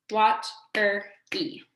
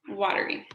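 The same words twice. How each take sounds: First: "watery" in three slow beats, wat - er - y; "watery" slowly chopped, wat, er, y; split into syllables. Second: Said in the usual way. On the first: Shown as a demonstration. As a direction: clap out "watery" with a gap after each syllable. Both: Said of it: "Let's clap our words".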